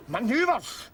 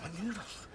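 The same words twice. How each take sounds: First: Indignant retort. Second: Much softer, rising in disbelief; disbelieving murmur. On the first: Drunk Scot throwing the soldier's excuse back at him in outrage. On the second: Drunk Scot quietly repeating the soldier's excuse in disbelief. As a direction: repeat the word almost under the breath. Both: Acted.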